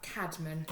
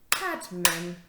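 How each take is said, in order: First: Said in the usual way. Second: CAD-MAN in two louder beats; split into syllables. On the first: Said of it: "another two syllable word". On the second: Shown as a demonstration. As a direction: break "Cadman" into two firm parts. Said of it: "break it up into two parts".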